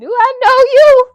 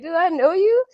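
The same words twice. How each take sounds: First: It sounds rude and hostile. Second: It sounds puzzled and confused.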